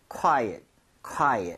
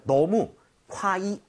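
First: "quiet"의 둘째 음절을 at에 가깝게; "quiet" 끝을 '콰이엇'으로 또렷이; correct quiet. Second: Quiet 읽을 때 "kwai"처럼 끝을 흐리게; "quiet"을 뭉개서 발음하기; wrong quiet. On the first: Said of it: "at에 가깝게 오히려 발음이 될 겁니다". (quiet을 콰이엇으로 또렷하게) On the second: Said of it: "너무 quiet 하지 마세요". (quiet을 잘못 뭉갠 발음) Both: Shown as a demonstration.

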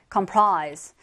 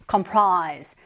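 No difference in how they are said.

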